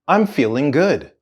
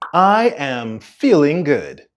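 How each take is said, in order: First: I am is shortened into one syllable. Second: I am is said as two full words.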